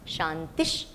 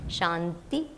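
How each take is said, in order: First: The word ends with an sh sound. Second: The word ends on a plain vowel. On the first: The speaker calls it right. "the Visarga is pronounced as Sh" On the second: The speaker calls it wrong. "many times I say Shanti, Shanti, Shanti, illa"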